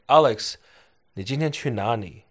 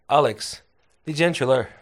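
First: Said slowly with clearly enunciated tones. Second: Said fast with words run together. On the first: This is the standard language. "So that's Mandarin, very enunciated tones" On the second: This is the regional dialect. "Here it is in Sichuanese. ... so it's way quicker"

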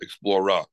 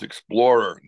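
First: Said in a New York accent. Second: Said in a neutral American accent. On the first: The speaker calls it wrong. "not Explorer" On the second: The speaker calls it right. "It's Explorer"

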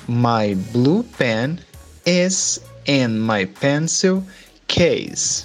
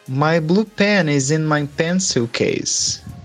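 First: It is said slowly. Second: It is said at normal speed.

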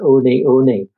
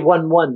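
First: Each word sounds like two syllables, oh-nee. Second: Each word sounds like the English number one. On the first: The speaker calls it right. "It's Oni Oni" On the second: The speaker calls it wrong. "they say 1-1, don't they? But that's not how you say it"

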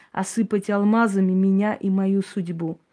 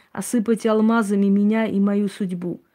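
The two takes are said the same way.

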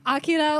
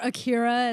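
First: The name has a Japanese-style pronunciation. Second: The name has an American-style pronunciation.

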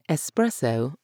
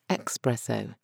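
First: The first syllable has a plain 's' sound. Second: The first syllable has a 'ks' sound. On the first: The speaker calls it right. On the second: The speaker calls it wrong.

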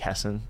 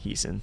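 First: The first vowel sounds like 'eh'. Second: The first vowel sounds like 'ee'. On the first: This is how the family pronounces the name. "her last name is pronounced like Hessen" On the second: This is how the show pronounces the name. "people on the show say Heeson"

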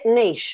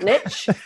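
First: The word ends in a soft 'sh' sound. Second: The word ends in a 'tch' sound. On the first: The speaker calls it right. "niche doesn't have a T in it. And you say it niche" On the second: The speaker calls it wrong. "not niche"

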